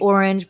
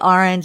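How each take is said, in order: First: It uses the standard pronunciation of the word. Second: It uses an East Coast pronunciation of the word. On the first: This is the proper way to say it. "It's proper to say" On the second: This is how the speaker personally says it. "but I say orange"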